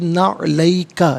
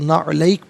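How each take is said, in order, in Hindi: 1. शब्द खुले स्वर पर खत्म होता है। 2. शब्द सादे व्यंजन पर खत्म होता है। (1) "मिलाकर पढ़ेंगे" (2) "यहाँ वक्फ करेंगे तो"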